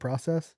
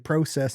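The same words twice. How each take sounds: First: It is said with a non-Canadian pronunciation. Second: It is said with a Canadian pronunciation. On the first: "instead of process" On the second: "the Canadians say process"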